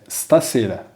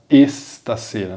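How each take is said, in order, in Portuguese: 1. A palavra começa diretamente com o som do S. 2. Um E extra é acrescentado antes do S. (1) "É stasera" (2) "não deve ser pronunciada com um E no começo"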